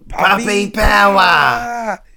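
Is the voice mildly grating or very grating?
very grating. The voice is very harsh and grating. The speaker calls it right. "It needs to be more grating"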